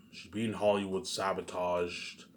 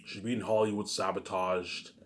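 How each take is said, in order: Both takes have the same delivery.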